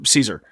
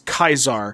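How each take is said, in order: First: The name begins with a soft S sound. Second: The name begins with a hard K sound. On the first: The speaker is using the English form of the name. "pronounce it as the anglicized" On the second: The speaker is using the Latin form of the name. "a post-classical Latin pronunciation emphasizing the diphthong"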